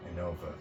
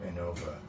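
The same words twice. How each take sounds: The two takes are said the same way.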